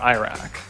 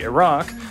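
First: The word is pronounced in an anglicized way. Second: The word is pronounced closer to the Arabic. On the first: It follows an English-adapted form. "Republicans are more likely to use the pronunciation" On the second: It follows the source-language form. "the pronunciation closer to what we would call the source form, or how this is pronounced in Arabic"

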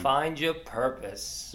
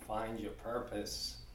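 First: It is said more loudly. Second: It is said at normal volume.

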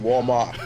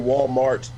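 First: It is said in a Southern Black accent. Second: It is said in a general American accent.

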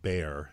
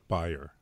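First: The name is said the American way. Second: The name is said the original way. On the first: "In the U.S. is called Bayer" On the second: "but you actually call it Bayer"

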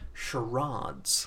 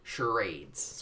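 First: The word is said in a British accent. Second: The word is said in an American accent. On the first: "英国的英文我们会说 charades" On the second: "在美国英文他们会用他们会说 charades"

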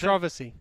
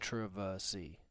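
First: The word is said at normal speed. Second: The word is said very slowly.

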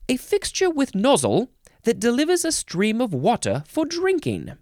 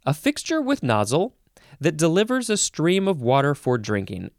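First: It is said in a put-on British accent. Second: It is said in the speaker's ordinary accent.

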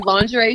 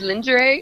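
First: It uses the speaker's own usual pronunciation. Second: It uses a South African pronunciation. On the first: This is how the speaker says it. "I say lingerie" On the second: This is how the roommate from South Africa says it. "she says lingerie"

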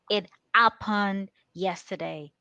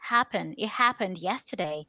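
First: Happened is said without its h sound. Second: Happened is said with its h sound. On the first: "you take away the H where there is an H" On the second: "you want to say something like happen"

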